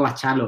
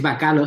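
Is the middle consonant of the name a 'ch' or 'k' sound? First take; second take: ch; k. First: The middle consonant is a 'ch' sound. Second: The middle consonant is a 'k' sound. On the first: "yo le digo Bachalo"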